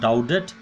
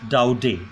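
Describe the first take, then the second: First: The name ends with a t sound. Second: The name ends without a t sound. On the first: The speaker calls it wrong. "not Daudet" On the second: The speaker calls it right. "the last syllable is not pronounced in French"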